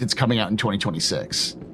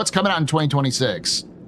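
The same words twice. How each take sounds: First: It is said tensely, through gritted teeth. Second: It is said in a plain, relaxed way.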